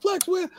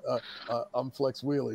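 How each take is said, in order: First: Very high-pitched outraged echo; shrieked, scornful question; incredulous outburst. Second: Soft, stammered answer; small, hesitant voice; meek introduction. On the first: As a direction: imitate a furious boss repeating a name in disbelief. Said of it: "He's just going off". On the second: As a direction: imitate a rookie timidly giving his name. Rookie answering the raging promoter. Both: Retold or imitated.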